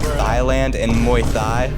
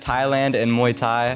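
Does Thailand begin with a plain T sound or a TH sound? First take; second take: TH sound; T sound. First: Thailand begins with a TH sound. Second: Thailand begins with a plain T sound. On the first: The speaker calls it wrong. "because they're spelled with the T H, I pronounced them like" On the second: The speaker calls it right. "Obviously, this is Thailand and Muay Thai"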